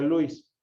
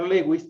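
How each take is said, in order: First: The name is said the English way, like 'Lewis'. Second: The name is read with Spanish letter sounds. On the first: It follows the name's original language. "el idioma original se pronuncia Luis" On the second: It reads the name as in the speaker's own language. "pronunciar Lewis también es correcto"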